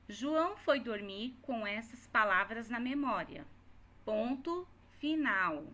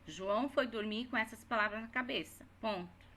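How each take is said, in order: First: Dictating the full stop clearly; reading aloud with punctuation. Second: Quicker read, dropped ponto; dictating the corrected sentence. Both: Shown as a demonstration. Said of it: "aqui é final de história".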